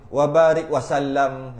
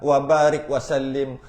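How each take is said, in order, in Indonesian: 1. Kata terakhir berakhir dengan bunyi 'am'. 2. Kata terakhir berakhir dengan bunyi 'im'. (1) "Ada yang salah" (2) "Wasallim dengan wasallam"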